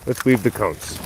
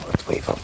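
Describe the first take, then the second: First: Said in the usual way. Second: Whispered "Let's weave 'em". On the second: Real, not acted. Owner whispering to dog about weaving cones. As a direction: breathe it as a secret plan.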